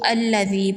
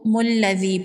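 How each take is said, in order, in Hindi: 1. यह शब्द स्वर से शुरू होता है। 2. यह शब्द जुड़ी हुई म की आवाज़ से शुरू होता है। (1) "यहाँ पर अगर वक्फ करते हैं तो अल्लज़ी पढ़ेंगे" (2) "अगर यहाँ पर वक्फ नहीं करते तो मुल्लज़ी पढ़ेंगे"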